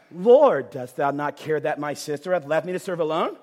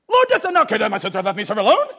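First: Said in the usual way. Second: Angry reading. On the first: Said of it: "I have read this passage out loud". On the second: Shown as a demonstration. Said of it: "The girl's ticked off".

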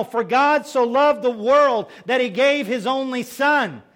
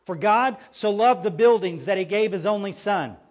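First: Slow and louder, "world" weighted in "loved the world"; corrected verse, emphatic. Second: Said in the usual way. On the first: Shown as a demonstration. Pastor correcting a misquoted verse for the congregation, slow and emphatic. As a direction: set the verse right, slowly and firmly.

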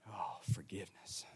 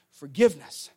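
First: Breathy hushed whisper, much softer. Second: Said in the usual way. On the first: Shown as a demonstration. Pastor echoing the principle to congregation, whispered. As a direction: breathe the word out as a secret.

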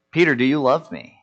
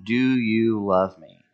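First: Said in the usual way. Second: Third asking, slow and deliberate; slow, searching repeat of the question; slow, weighted question. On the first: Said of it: "Jesus turns to Peter and says". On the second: Retold or imitated. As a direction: draw out each word of the question. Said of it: "Third time he asks him".

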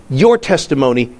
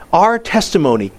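First: Your testimony with the weight on your; your testimony, your pushed; stress on your. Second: Our testimony with the weight on our; stress on our. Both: Shown as a demonstration.

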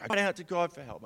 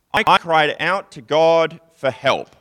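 First: Light, fast, higher throwaway quote; quick paraphrase. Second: Loud, slow reading of a psalm; solemn scripture reading. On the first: Retold or imitated. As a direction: rattle it off casually. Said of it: "he's like". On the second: Acted. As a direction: proclaim it slowly and loudly.

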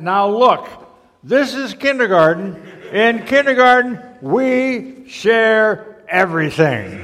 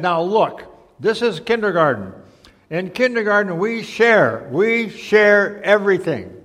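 First: Loud, high schoolroom chant with a very slow finish; big storybook chorus, loud and stretched; all the kids, chorusing. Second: Slightly raised teacher voice laying down a rule; a hint of a firm teacher; lightly voiced kindergarten teacher, instructing. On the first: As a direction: chant the rule like a whole class, dragging out the last words. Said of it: "And all the kids said". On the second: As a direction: lightly play a teacher, stretching the final words. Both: A narrator's reading.

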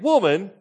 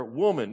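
First: Loud, high, mock-disrespectful outburst; with attitude. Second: Said in the usual way. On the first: Shown as a demonstration. Preacher showing how Jesus didn't say it, with attitude. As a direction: throw it out sharply with mock attitude. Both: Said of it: "he didn't say it with attitude".

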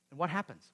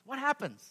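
First: Said in the usual way. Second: Higher, stress on happens; preacher repeats What happens, pitched higher; emphatic repeat. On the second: Shown as a demonstration. Preacher asks the church again, higher and pressing.

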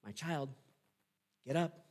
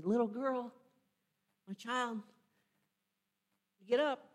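First: Said in the usual way. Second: Gentle wake-up call. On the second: Shown as a demonstration. Jesus waking the dead girl like a napping kid, gentle. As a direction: coax a child out of a nap. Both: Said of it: "That's how he says it".

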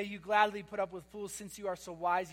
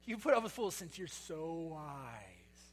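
First: Said in the usual way. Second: Slow, lower, softer mock admiration; sarcastic. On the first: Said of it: "you should hear the sarcasm". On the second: Shown as a demonstration. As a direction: drag out "so wise" with dripping sarcasm. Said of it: "hear the sarcasm in his voice".

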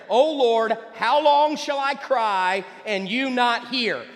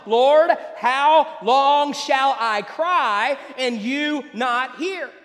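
First: Plaintive cry to God. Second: Slow, drawn-out, pleading cry with a break in the voice; anguished plea. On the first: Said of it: "he starts the question". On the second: Preacher voices the prophet begging God, slowed and anguished. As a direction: stretch each word out like a desperate prayer. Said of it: "drags on and on and on". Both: Retold or imitated.

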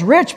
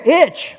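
First: Said in the usual way. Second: "rich" broken and drawn out, higher; emphatic RICH. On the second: Shown as a demonstration. Pastor sizing up the family's wealth, "rich" drawn out emphatically. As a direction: stretch "rich" to mean seriously wealthy. Stretches word to show great wealth.

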